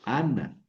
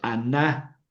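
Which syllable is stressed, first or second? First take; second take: first; second. First: The stress is on the first syllable. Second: The stress is on the second syllable. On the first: The speaker calls it right. "el acento cae en la primera" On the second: The speaker calls it wrong. "no es Ana"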